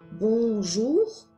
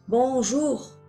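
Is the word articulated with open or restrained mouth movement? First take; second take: restrained; open. First: It is articulated with small, restrained mouth movement. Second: It is articulated with wide, fully open mouth movement. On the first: "si on limite" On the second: "j'articule à fond"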